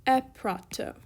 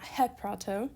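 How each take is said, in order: First: "eprato" starting on a clean e, no h sound; smooth breathing. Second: "heprato" with an audible h before the e; aspirated onset. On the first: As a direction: say "eprato" with a bare vowel onset, no aspiration. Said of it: "this has a smooth breathing mark". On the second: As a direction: breathe an h onto the front of "heprato". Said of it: "'cause it's not heprato". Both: Shown as a demonstration.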